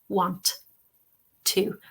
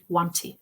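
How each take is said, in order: First: It is said slowly and carefully. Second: It is said very quickly.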